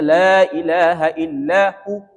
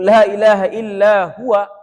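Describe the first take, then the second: First: The final word is a short clipped hu. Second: The final word is the full form huwa. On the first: "Ini masih kurang. Hu dua harakat"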